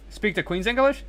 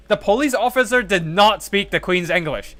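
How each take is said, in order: First: Rising, questioning read of a viewer's claim; puzzled question. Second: Higher and louder, stressing officer firmly; emphatic correction. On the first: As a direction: read it back as a doubtful question. Reading a viewer's question aloud. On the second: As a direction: set the record straight, punching officer. Firmly correcting a viewer's claim. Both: Real, not acted.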